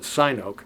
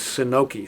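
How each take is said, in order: First: The name ends with an 'oh' sound. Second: The name ends with an 'ee' sound. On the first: This is how some people say it. "Some people pronounce it" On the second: This is the pronunciation an expert gave. "the way you pronounce that in Chinese is"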